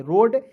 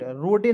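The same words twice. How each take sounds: First: रोड with silent e, ending on the d; right reading. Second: रोडे with the final e voiced, the wrong way; wrong reading. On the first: Teacher shows students the right reading, रोड with silent e. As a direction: say रोड with no final vowel. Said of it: "R O D ई को पढ़ेंगे रोड". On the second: Teacher shows students the wrong reading, रोडे with e voiced. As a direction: say रोडे sounding out the silent e. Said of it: "रोडे नहीं पढ़ लीजिएगा". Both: Shown as a demonstration.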